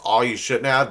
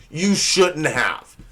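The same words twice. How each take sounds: First: Said in the usual way. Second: "You shouldn't have" drawn out slowly, each word weighted; meaning it literally. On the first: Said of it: "your partner reads the card and says". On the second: Acted. Partner reading a cheap card, meaning "shouldn't have" literally. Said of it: "they mean it".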